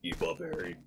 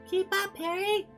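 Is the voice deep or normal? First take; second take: deep; normal. First: It is said in a very deep voice. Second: It is said in a normal voice.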